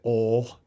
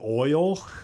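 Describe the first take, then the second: First: The vowel is a single sound, like 'all'. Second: The vowel glides, like 'oy' in 'oil'. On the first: This is the speaker's own backwoods way of saying it. The speaker calls it right. "they would make fun of my words. Like I would say" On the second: This is how the others in the church say it. The speaker calls it wrong. "they're like, "You mean oil?""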